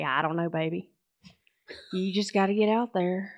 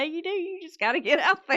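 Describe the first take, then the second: First: Put-on Mississippi accent. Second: Much higher, amused agreement; amused echo. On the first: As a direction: lay on a laid-back Mississippi accent. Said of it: "that's my best Mississippi accent". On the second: Real, not acted. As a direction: repeat the advice high, tickled by it. Laughingly echoes dad's advice.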